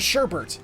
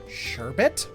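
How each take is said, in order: First: The second syllable has an extra R sound. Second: The second syllable has no R sound. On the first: The speaker calls it wrong. "people who say" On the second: The speaker calls it right. "with one R in it?"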